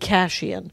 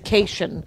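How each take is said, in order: First: It uses the usual outside pronunciation. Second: It uses the local South Milwaukee pronunciation. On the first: This is how everyone else says it. "the rest of the world would call me Cashian" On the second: This is how people from the hometown say it. "in South Milwaukee they say Cation"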